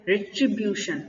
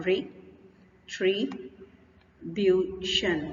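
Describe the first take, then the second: First: Said in the usual way. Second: "retribution" very slowly as re, tri, bu, tion; syllable by syllable. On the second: Shown as a demonstration. Teacher counts out four syllables for learners, "retribution" slowly separated. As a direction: split "retribution" into four syllables with long pauses. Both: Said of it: "इसमें चार syllable आ गए आपके".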